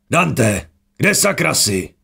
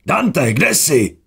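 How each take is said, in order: First: Higher, urgent call for Dante; first call, pitched up and quick. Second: High, slow, far-carrying call; second call, slow and long, higher still; drawn-out call. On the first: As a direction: shout into the dark for a lost friend. Calling for a missing comrade. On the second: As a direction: stretch the name out as if calling from afar. Calling again, drawn out. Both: A narrator's reading.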